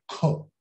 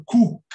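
First: Cook short and relaxed; clipped cook; right cook. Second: Cook with a long oo like kook; stretched cook; wrong cook. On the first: Teacher giving the correct vowel. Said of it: "É cook". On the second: Teacher showing students' mistake. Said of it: "mas não é cook". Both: Shown as a demonstration.

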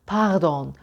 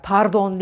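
First: "Pardon" with a guttural R, lower; back-of-throat R in "Pardon", no trill; "Pardon" as pağdon, French style. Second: "Pardon" with the R rolled on the tongue; "Pardon" with a front rolled R; Turkish trilled R. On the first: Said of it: "Genizden gelir". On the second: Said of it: "değil". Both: Shown as a demonstration.

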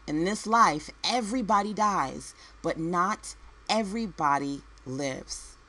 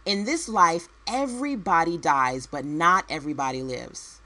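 First: Emphatic repeat. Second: Said in the usual way. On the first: Real, not acted. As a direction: repeat it for weight, stretching "not everybody lives". Repeats her maxim for emphasis.

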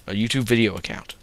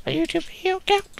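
First: Said in the usual way. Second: Very high, fast squeak; squeaky falsetto. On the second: Shown as a demonstration. Vlogger repeating the reveal in a squeaky falsetto. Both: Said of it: "repeated takes".

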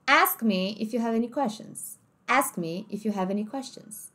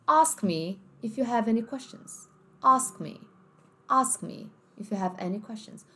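First: American accent. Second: British accent. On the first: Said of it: "Inglês americano". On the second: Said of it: "Inglês mais britânico". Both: Shown as a demonstration.

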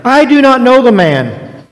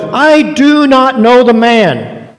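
First: Higher, louder, slow angry denial. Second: Slow, emphatic, louder denial; slow firm denial. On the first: Peter cursing and swearing at the bystanders, angry and loud. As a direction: spit it out as a final angry refusal. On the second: Peter denying Jesus a second time, slow and emphatic. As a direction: lean on each word, getting firmer. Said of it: "It's getting more pronounced". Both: Acted.

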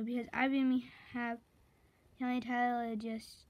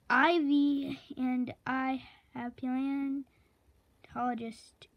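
First: Paleontologists stumbled and mispronounced as "enitalatchus"; misread word. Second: Slow, loud careful reread of paleontologists, every syllable clear; careful correction. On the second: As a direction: fix the word and say paleontologists properly, slowly. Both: Real, not acted.

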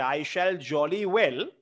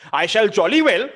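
First: Said in the usual way. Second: Loud, high sarcastic jolly well; sarcastic fury, voice raised; angry sarcasm. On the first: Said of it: "He's using verbal irony". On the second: Acted. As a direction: spit "I shall jolly well" loud and bitter. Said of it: "he's very angry".

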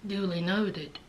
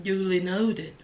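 First: Very soft, low deadpan aside; sarcastic low aside; dry deadpan. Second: Soft low repeat of "Duly noted"; quiet echoed aside; deadpan again softly. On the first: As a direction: murmur it flat and unimpressed. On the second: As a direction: repeat it under the breath. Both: Retold or imitated. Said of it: "I was like".

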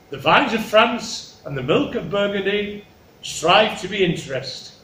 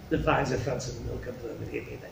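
First: Lilting, stately royal declamation; grand kingly talk. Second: Said in the usual way. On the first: Acted. King naming his youngest's suitors, stately and lilting. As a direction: roll out the ornate phrases ceremoniously. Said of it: "that's the way he talks". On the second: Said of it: "couldn't come out saying".

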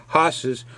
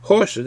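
First: Horses said Boston style with no R, like hahses; Boston accent. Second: Horses with a clear R, hor-ses. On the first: Beer reviewer showing the wrong Boston way to say horses. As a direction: say horses with the R dropped. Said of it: "There's an R in there someplace". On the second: Beer reviewer correcting himself to a rhotic horses. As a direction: sound the R in horses fully. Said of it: "It should be horses". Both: Shown as a demonstration.

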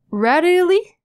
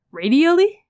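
First: "Radially" said RAD-ially with a short a, rising; "Radially" tested with a short a sound; first try at pronunciation. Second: "Radially" said RAY-dially with a long a, rising; "Radially" retried with a long a sound; second try at pronunciation. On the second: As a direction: correct yourself: "Radially" as RAY-dee-ally. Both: Shown as a demonstration.

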